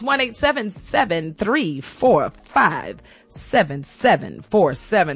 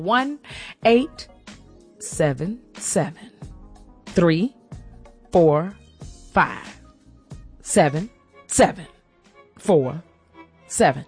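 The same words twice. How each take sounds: First: The number is said fast. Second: The number is said slowly.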